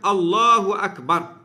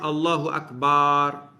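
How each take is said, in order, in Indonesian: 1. Vokal-vokalnya tetap dengan panjang biasa. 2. Vokal dipanjangkan dengan tambahan panjang. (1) "hendaklah ia melafazkan Allahu Akbar" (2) "dia tambah alif"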